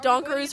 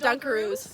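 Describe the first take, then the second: First: The first syllable sounds like 'don'. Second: The first syllable sounds like 'dun'. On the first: "she pronounced it Donkaroos" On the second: "instead of Dunkaroos"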